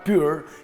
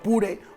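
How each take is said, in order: First: The name is said with the brand's own sounds. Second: The name is read with plain Spanish sounds. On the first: "como dicen ahí en Bora" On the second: "Es el modelo Pure"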